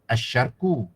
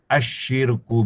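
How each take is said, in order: First: The vowel after the sh sound is a. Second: The vowel after the sh sound is i. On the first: The speaker calls it wrong. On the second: The speaker calls it right.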